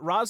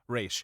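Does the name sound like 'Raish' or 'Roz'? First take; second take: Roz; Raish. First: The name is said like 'Roz'. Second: The name is said like 'Raish'.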